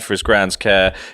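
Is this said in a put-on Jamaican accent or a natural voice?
natural voice. It is said in his own natural accent. The speaker calls it right. "you can just do it in your own voice"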